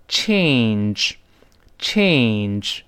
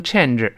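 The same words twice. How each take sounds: First: "change" very slow, with a full ay glide; long diphthong A. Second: "change" mispronounced "chen-er", short e and extra syllable; wrong change. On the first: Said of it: "要读成". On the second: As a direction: lose the ay glide in "change". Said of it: "改变不能读成change". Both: Shown as a demonstration.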